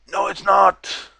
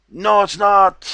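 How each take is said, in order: First: Higher, flat-out dismissive no; scoffing denial. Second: Louder, slower, higher no; emphatic denial. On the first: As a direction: shoot the idea down hard. Scoffing at the claim. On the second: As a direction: drag it out, louder and firmer. Scoffing at the claim, second take. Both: Real, not acted.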